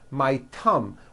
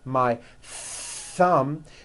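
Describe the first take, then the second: First: The word begins with a hard T sound. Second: The word begins with a soft TH sound. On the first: The speaker calls it wrong. "That is not correct" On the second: The speaker calls it right. "notice how my tongue is coming out"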